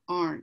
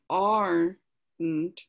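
First: The word is said mashed together. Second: The word is said in separate parts. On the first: The speaker calls it right. "You kind of mash it together and come out with aren't" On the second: The speaker calls it wrong. "you don't say aren't"

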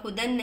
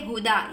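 First: The word ends with an n sound. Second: The word ends with a long a vowel. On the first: The reading continues without a stop. The speaker calls it wrong. "तो आप हुदन नहीं" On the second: The reading stops at this word. The speaker calls it right. "बल्कि हुदा"

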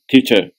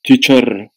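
First: The final r is silent, vowel lengthened. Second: The final r is sounded. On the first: The speaker calls it right. "uzatılıp aydılar teacher" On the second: The speaker calls it wrong. "teacher değil"

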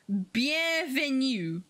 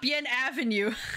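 First: It is run together as one word. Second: It is split into two separate words. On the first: The speaker calls it right. "It's one whole word" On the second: The speaker calls it wrong. "it's not Bien Avenue"

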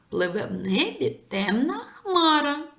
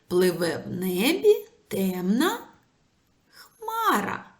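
First: The line is spoken at a fast pace. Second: The line is spoken at a normal pace.

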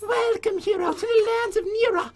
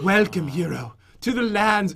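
First: It is read in a put-on girl voice. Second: It is read in the speaker's normal voice.

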